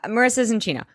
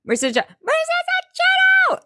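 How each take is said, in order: First: Higher voice at normal volume; slightly high, contained nervous admission; contained confession. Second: Very high squawked outburst; hammed-up high-pitched yell; mock yelled blurt. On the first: Retold or imitated. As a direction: get the news out without shouting. Seth's first, contained attempt. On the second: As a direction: blurt it out in a shrieky imitation. Seth blurts it out to all.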